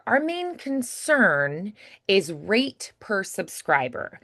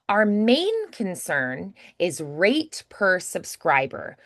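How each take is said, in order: First: The stress is on concern. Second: The stress is on main.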